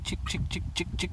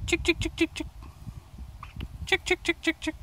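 First: Calling chickens. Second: Very high sing-song chick call; calling chickens. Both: Real, not acted.

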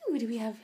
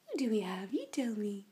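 First: Said in the usual way. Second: Breathy whisper to the pup. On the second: Real, not acted. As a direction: whisper it to the dog. Calling to the puppies.

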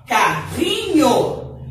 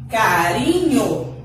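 First: Carrinho said very slowly with a guttural rr like h; strong double R. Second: Carinho said slowly with a light tapped R; soft single R. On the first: Teacher to pupils, slow strong RR demo. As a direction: drag out the throaty RR in Carrinho. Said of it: "Olha o som como fica forte". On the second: Teacher to pupils, slow tapped R demo. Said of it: "Olha como é diferente o som do R". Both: Shown as a demonstration.

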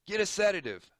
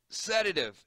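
First: High, loud urgent order; doctor ordering the nurse. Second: Doctor calling to the nurse; urgent call. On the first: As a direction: shout the order across the room. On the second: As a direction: bark for the drug in a hurry. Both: Acted. Doctor calls for sedative.

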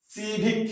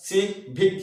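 First: Said in the usual way. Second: "civic" with a gap between সি and ভিক; split in two. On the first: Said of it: "সি আলাদা". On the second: Shown as a demonstration. Teacher showing two separate syllables, "civic" split apart. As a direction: say সি, brief pause, then ভিক. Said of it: "ভিক আলাদা".

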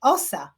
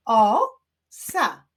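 First: Said in the usual way. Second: Loud "O", pause, then "sa"; syllable by syllable. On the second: Shown as a demonstration. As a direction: clap out "O, sa" in two beats. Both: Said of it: "Wyklaszczmy sylaby w tych wyrazach".

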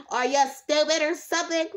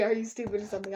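First: Mock snotty put-down. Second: Said in the usual way. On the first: Herself imagining snapping at a viewer, mock snotty. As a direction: sneer it like a bratty viewer. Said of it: "I would be like". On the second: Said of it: "I would not say".

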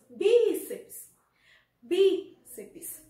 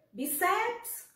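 First: Bíceps with BI stretched loud, then dropping; stress on first syllable. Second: Bíceps wrongly stressed as bi-CEPS, higher; stress on second syllable. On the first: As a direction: punch and hold the BI of bíceps. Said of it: "Nós temos o bi como a sílaba tônica". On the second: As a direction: lean on CEPS in bíceps, pitched up. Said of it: "Nós falamos bíceps". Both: Shown as a demonstration.

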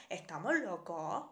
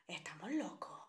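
First: Said in the usual way. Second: Conspiratorial stage whisper. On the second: Acted. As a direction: whisper it, no voice at all. Repeats her line as a whisper.

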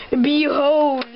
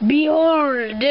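First: Loud proud unveiling; grand villain announcement. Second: Grand villain announcement. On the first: Villain unveils his device. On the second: Repeated unveiling. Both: Acted. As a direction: proclaim it like a villain.

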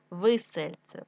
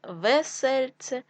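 First: Весельце said as висельце; short i after В in весельце; и in first syllable. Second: Said in the usual way. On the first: Shown as a demonstration. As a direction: make весельце start with ви. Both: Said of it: "весло".

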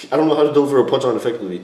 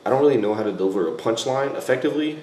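First: Fast and louder, tumbling out; rushed repeat. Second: Said in the usual way. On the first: Shown as a demonstration. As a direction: blurt it out quickly, a touch exasperated. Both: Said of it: "the tone of my voice".

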